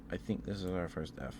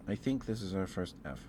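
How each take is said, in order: Both takes have the same delivery.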